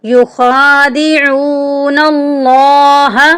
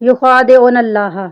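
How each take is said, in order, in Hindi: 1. लंबे स्वर खींचकर लंबे किए जाते हैं। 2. लंबे स्वर छोटे कर दिए जाते हैं। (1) "इसको हम एक अलिफ की मिकदार के बराबर लंबा करेंगे" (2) "अक्सर लोग पढ़ते हैं युखादिऊन अल्लाह, जो कि गलत है"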